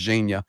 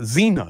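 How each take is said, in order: First: The name starts with a soft zh sound. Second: The name starts with a plain z sound. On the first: The speaker calls it right. "they cannot say it right because his nick is Zhenya" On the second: The speaker calls it wrong. "they go Zena"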